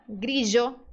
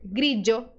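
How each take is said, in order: First: The middle consonant is a zh sound. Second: The middle consonant is a dj sound. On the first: "pode ser pronunciado como J" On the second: "pode ser pronunciado como D J"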